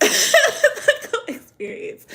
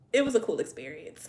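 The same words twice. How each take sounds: First: High, drawn-out words through loud laughter; laughing. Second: Said in the usual way. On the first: Real, not acted. Streamer summing up donut story to viewers, laughing hard. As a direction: repeat it while cracking up. Cracks up repeating herself.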